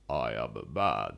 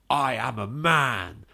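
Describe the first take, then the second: First: It is said in an exaggerated deep voice. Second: It is said in a normal speaking voice.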